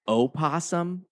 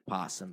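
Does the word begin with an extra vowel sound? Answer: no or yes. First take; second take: yes; no. First: The word begins with an extra vowel sound. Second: The word begins directly with a p sound. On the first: The speaker calls it right. "It's opossum" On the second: The speaker calls it wrong. "not possum"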